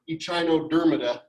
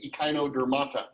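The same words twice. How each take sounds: First: The word starts with a ch sound. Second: The word starts with a k sound. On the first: The speaker calls it wrong. "It's a K sound instead of a C H, okay? So it's not echinodermata" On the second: The speaker calls it right. "It's echinodermata"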